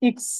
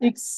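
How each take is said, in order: The two takes are said the same way.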